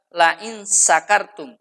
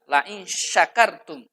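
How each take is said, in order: First: The consonant is an s sound. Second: The consonant is an sh sound. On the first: The speaker calls it wrong. "menggunakan shin kecil" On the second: The speaker calls it right. "menggunakan shin besar"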